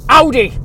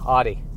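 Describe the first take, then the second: First: It is said harshly, with anger. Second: It is said in a relaxed, easygoing way.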